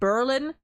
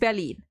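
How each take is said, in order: First: It is said with English pronunciation. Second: It is said with full German pronunciation. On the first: "where in English it's like Berlin" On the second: "if you want like like complete German pronunciation"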